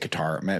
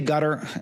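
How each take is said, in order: First: The name sounds like 'ka-tar'. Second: The name sounds like the word 'gutter'. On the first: This is the speaker's own usual way of saying it. "I'm going to say Qatar" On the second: This is how people in Washington say it. "everyone in Washington pronounces it gutter"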